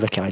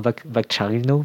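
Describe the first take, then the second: First: The name is said with French pronunciation. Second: The name is said with Italian pronunciation. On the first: "on va dire à la française" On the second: "si tu devais prononcer à l'italien"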